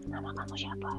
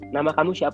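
First: It is said in a creepy put-on voice. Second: It is said in a normal voice.

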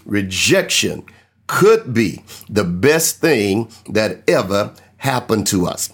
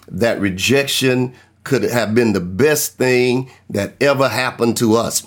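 First: It is said forcefully, with authority. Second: It is said plainly, without special authority.

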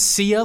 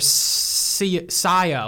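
First: The name rhymes with the word Tia. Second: The name sounds like a British 'sire'.

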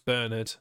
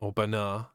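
First: The name is pronounced the English way. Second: The name is pronounced the French way.

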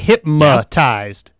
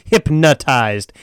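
First: The middle consonant is an m sound. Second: The middle consonant is an n sound. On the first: The speaker calls it wrong. "They all say hypnotized with an M" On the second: The speaker calls it right. "It's hypnotized"

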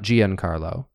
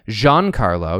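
First: The name is said with four syllables. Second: The name is said with three syllables. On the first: The speaker calls it wrong. "not Giancarlo" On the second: The speaker calls it right. "his name is in fact pronounced Giancarlo"

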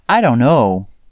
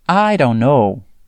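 First: The words run together quickly and reduced. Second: The same.

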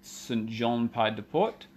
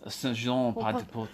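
First: The name is said with an English accent. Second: The name is said with a French accent.

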